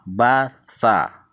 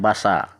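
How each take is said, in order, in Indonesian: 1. Bunyi s diucapkan dengan lidah di antara gigi. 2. Bunyi s diucapkan seperti desis s biasa. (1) "T S A, sa" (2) "Nggak boleh ini dibaca basa"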